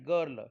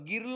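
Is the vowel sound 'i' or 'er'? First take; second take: er; i. First: The vowel sounds like 'er'. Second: The vowel sounds like 'i'. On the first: The speaker calls it right. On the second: The speaker calls it wrong.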